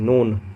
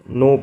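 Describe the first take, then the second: First: The word ends with an added n sound. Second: The word ends in a vowel with no final n. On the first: The speaker calls it wrong. "अब बच्चे लोग नोन पढ़ देंगे" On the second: The speaker calls it right. "इसको हम लोग नो पढ़ते हैं"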